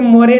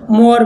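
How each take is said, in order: First: मोरे in two syllables, "mo-ray"; wrong sounded E. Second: मोर in one syllable, "more"; silent final E. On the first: Teacher showing what not to say, मोरे with final "ay". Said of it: "अभी से मोरे नहीं बोलना है". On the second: Teacher correcting the word, मोर ending on r. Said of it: "मोर बोलना है". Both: Shown as a demonstration.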